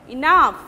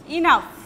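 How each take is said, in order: The two takes are said the same way.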